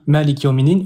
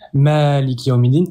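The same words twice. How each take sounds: First: The first vowel "ma" is kept short. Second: The first vowel "ma" is drawn out long. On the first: It means king of the worlds. "je prolonge pas, je dis direct le mot" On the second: It means sovereign of the worlds. "Là, j'ai prolongé sur le ma"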